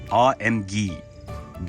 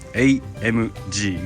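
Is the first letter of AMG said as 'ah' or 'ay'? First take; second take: ah; ay. First: The first letter is said as 'ah'. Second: The first letter is said as 'ay'. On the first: This is how it is called in Germany. "本国ドイツでは何て呼ばれてるのかっていうとアーエムジーです" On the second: This is the official reading used in Japan. "ここ日本ではエーエムジーが正しい読み方"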